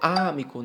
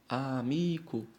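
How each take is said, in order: First: The stress is not on the second-to-last syllable. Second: The stress is on the second-to-last syllable. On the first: The speaker calls it wrong. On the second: The speaker calls it right.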